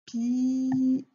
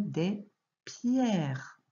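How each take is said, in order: First: Pierres as pi-erres, two syllables; wrong reading. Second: Pierres in one syllable, pjɛʀ; correct reading. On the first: Teacher showing a child the wrong reading pi-erres. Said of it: "on va pas le lire comme ça". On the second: Teacher showing a child the right reading, des pierres. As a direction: say des pierres with pierres glided together. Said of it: "on va dire des pierres". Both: Shown as a demonstration.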